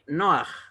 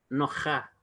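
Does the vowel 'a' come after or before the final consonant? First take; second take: before; after. First: The vowel comes before the final consonant. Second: The vowel comes after the final consonant. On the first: The speaker calls it right. "se lee Noaj" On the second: The speaker calls it wrong. "y no Noja, Eso es incorrecto"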